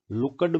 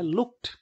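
First: "लुक्ड" in two syllables, "luk-ad"; wrong Haryana pronunciation. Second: "लुक्ड" as high, one-syllable "lukt"; correct -ed as "t". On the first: Teacher quotes Haryana speakers' mistake, looked said as "lukkad". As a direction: add a vowel before the d in "लुक्ड": "lukkad". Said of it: "बहुत गलत pronunciation है". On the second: Teacher corrects the Haryana mistake, looked pronounced "lukt". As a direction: say "लुक्ड" with no extra vowel, ending in t. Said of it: "लेकिन बहुत गलत pronunciation है". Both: Shown as a demonstration.

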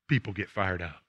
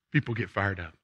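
No difference in how they are said.

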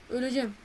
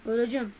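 Both takes have the same delivery.

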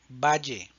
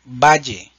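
First: Valle repeated softer, the LL still like "j" in judge; valle, the echo take, calm; valle, repetición suave; quiet repeat valle. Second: Valle, louder, the LL said like "j" in judge; Valle, set out loud for the class; Valle, la LL como "ye" fuerte; loud model word Valle. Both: Shown as a demonstration. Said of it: "El sonido de la doble L".

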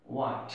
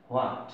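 First: হোয়াট said as wat, with the h silent; correct pronunciation. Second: হোয়াট said with a clear h sound at the start, as hwat; common wrong pronunciation. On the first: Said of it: "তাহলে উচ্চারণটা কি হবে?". (হোয়াট সঠিকভাবে, এইচ নীরব রেখে) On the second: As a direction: voice হোয়াট the usual mistaken way, h sounded. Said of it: "আসলে এটার উচ্চারণ হোয়াট হবে না". (হোয়াট ভুলভাবে, এইচ উচ্চারণ করে) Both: Shown as a demonstration.

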